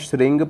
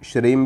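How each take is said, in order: First: The word ends with an ng sound. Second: The word ends with an m sound. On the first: "इसको मैं श्रृंग पढ़ता हूँ" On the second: "इसको आप अगर श्रीम पढ़ते हो"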